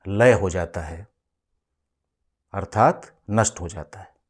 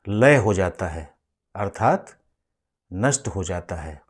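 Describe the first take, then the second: No difference in how they are said.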